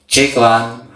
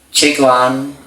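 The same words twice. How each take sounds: First: The low frequencies are boosted for a bassier voice. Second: The high frequencies are boosted for a brighter voice. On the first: "Kalau kurang low kita tambahin aja di sini kalau suka ngebas" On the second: "kita tambahi high-nya"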